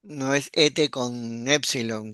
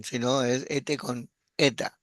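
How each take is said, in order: First: "ete" with a short e, as epsilon, said slowly; short e vowel. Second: "ete" with a long e, as eta; long e vowel. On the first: ("ete" con e breve, como épsilon) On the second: ("ete" con e larga, como eta) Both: Shown as a demonstration.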